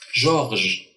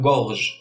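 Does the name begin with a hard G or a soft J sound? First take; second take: soft J; hard G. First: The name begins with a soft J sound. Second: The name begins with a hard G sound. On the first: The letter E follows the G. The speaker calls it right. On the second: The letter E is missing after the G. The speaker calls it wrong.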